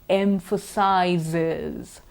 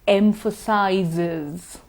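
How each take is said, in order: Both takes have the same delivery.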